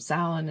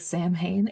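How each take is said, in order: First: It is not pronounced the way it is spelled. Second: It is pronounced the way it is spelled. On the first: This is how people here actually say it. The speaker calls it right. "Samhain is what we call it here" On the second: This is how it seems when only read. The speaker calls it wrong. "I say Sam Hain in my head"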